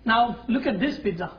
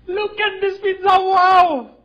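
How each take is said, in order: First: Said in the usual way. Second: Much higher and louder, thrilled; excited. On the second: Real, not acted. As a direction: burst out with delight at the pizza.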